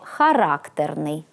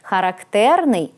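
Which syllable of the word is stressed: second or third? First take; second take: second; third. First: The stress is on the second syllable. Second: The stress is on the third syllable. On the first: Having a strong, stubborn, wilful character. "Коли наголос падає на другий склад" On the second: Typical of or peculiar to someone or something. "з наголосом на третьому складі"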